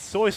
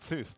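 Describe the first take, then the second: First: The name rhymes with voice. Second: The name does not rhyme with voice. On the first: The speaker calls it right. "It's Seuss like voice" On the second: The speaker calls it wrong. "It's not Seuss"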